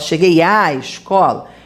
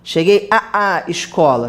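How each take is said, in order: First: One merged a sound comes before escola. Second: Two separate a sounds come before escola. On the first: The speaker calls it right. "a gente fala cheguei à escola" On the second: The speaker calls it wrong. "a gente não fala a a"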